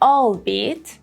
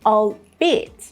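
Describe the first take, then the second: First: The main stress is not on the second syllable. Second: The main stress is on the second syllable. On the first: The speaker calls it wrong. "that would be wrong" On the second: The speaker calls it right. "the second syllable has the main stress"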